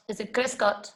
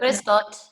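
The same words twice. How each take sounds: First: Is it Grüß Gott asked as a doubtful check, not a statement; unsure question. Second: Grüß Gott said as a firm answer with a falling tune; confident statement. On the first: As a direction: ask "Grüß Gott" back, doubting your own answer. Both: Shown as a demonstration.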